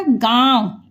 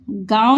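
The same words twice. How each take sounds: First: "गांव" with the aa sent through the nose; nasalised vowel. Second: "गांव" said as plain gaao, no nasal vowel; the wrong, un-nasalised "गांव"; without nasal. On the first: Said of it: "इसको क्या बोला जाएगा". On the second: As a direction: say "गांव" with a purely oral aa. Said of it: "गांव नहीं, इसको क्या बोला जाएगा". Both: Shown as a demonstration.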